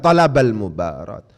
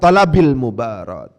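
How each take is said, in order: First: The first word ends in an a vowel. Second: The first word ends in an i vowel.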